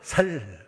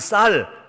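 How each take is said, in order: First: The first consonant is a plain s sound. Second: The first consonant is a tense s sound. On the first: "쌀을 쌀이라고 못하고 살" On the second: "아니 쌀"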